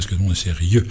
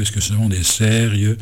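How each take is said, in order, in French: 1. L'accent tombe sur la dernière syllabe de sérieux. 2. L'accent tombe sur la première syllabe de sérieux. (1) "alors que nous, on serait tenté de dire" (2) "l'inversion de l'accent tonique sur le mot sérieux"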